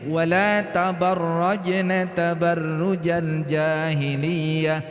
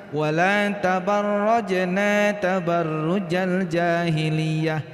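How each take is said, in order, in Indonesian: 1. Vokal akhir dari tabarrajna pendek. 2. Vokal akhir dari tabarrajna panjang. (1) "Tabarrajna seharusnya dibaca pendek ya" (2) "Naknya dibaca panjang, seharusnya dibaca pen pendek"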